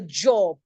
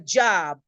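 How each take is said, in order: First: It is said in a British accent. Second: It is said in an American accent. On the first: The speaker calls it right. "but it's a job" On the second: The speaker calls it wrong. "I think the Americans do job. I got a job"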